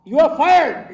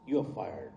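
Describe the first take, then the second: First: You are fired yelled much higher and louder; furious shout. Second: Said in the usual way. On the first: Retold or imitated. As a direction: bark the firing at full volume. Manager firing him, shouted.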